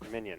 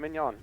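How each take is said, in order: First: The name is said like English 'minion'. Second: The name is said like French 'mignon'. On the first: The speaker calls it right. "Has to be Minion" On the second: The speaker calls it wrong. "Not Filet Mignon"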